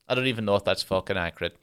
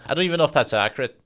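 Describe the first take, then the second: First: Said in the usual way. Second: Higher, louder, fast self-doubt; incredulous aside. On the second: Real, not acted. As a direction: blurt it out, fast and lifted.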